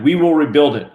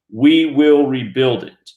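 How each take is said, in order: First: "will" pushed loud and falling, rest of "We will rebuild it." lighter; stress on WILL. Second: "We" punched loud at the start, whole line slow and deliberate; slow headline read leaning on "We"; stress on WE. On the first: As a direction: lean on the word "will" like a headline. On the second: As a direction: hit "We" hard, then let "will rebuild it" follow slowly. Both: Shown as a demonstration. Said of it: "emphasis on the exact same words".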